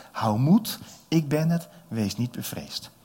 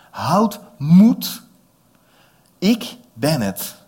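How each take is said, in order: First: Jesus speaking. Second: Loud call across the water, slow ik ben het. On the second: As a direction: shout it over the storm. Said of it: "De Heer Jezus riep dat natuurlijk. Heel hard". (luid roepend over het water) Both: Acted.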